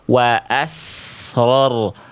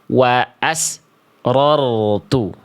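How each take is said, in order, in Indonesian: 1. Desisnya langsung mengalir ke r tanpa jeda. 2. Desisnya berhenti, ada jeda hening sebelum r. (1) "harus ngalir" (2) "Desisan, nafas, dan suaranya terputus"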